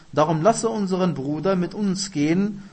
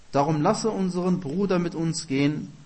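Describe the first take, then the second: The two takes are said the same way.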